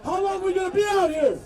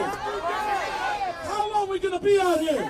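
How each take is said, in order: First: Said in the usual way. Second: Slow, drawn-out rally shout. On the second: Real, not acted. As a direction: stretch it out and call to the crowd.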